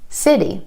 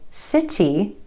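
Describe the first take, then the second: First: The middle consonant is a quick D-like flap. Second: The middle consonant is a crisp, released T.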